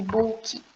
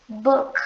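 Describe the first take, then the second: First: "book" said as "booki" with an extra final vowel; wrong extra vowel. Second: "book" ending on a stopped K, no vowel after; clipped final K. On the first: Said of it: "como se tivesse um E final aqui". ("book" errado, com um I no final) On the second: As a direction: cut "book" off hard at the K. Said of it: "Esse K, tipo, travado". ("book" com o K travado, sem vogal) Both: Shown as a demonstration.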